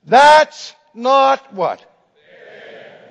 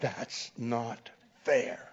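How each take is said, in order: First: Loud, slow protesting shout; the whole class crying out together; outcry in protest. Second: Slow, softer resentful protest; angry. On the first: Students protesting the failing grade, loud slow outcry. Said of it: "they cried out in protest". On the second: Angry student repeating his complaint to the professor, slow and resentful. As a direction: grind out the complaint, quietly angry. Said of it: "And now he's angry". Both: Retold or imitated.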